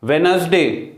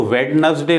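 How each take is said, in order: First: वेडनेसडे as "wenz-day", first d dropped; silent D. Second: वेडनेसडे as "wed-nes-day", first d heard; D wrongly sounded. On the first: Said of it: "यहाँ डी जो है वो silent है". (वेडनेसडे में पहला डी silent) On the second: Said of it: "वो वेडनेसडे नहीं है". (वेडनेसडे में पहले डी का गलत उच्चारण) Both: Shown as a demonstration.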